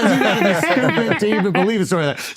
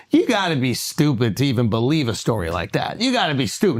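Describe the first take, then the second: First: Fast, light throwaway denial; breezy rapid dismissal; quick brush-off. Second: Slow, weighty put-down; deliberate mock scorn; drawn-out dismissal. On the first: Retold or imitated. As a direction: toss it off quickly and casually. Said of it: "but he just says". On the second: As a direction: lean on every word like a scolding. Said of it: "Now, he don't say it in that".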